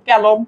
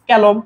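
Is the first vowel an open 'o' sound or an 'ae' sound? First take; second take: ae; ae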